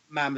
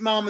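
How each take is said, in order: First: The vowel is short and front, as in ham. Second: The vowel is long and open, as in harm. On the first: The speaker calls it right. "Mam as in ham" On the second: The speaker calls it wrong. "Mom as in harm"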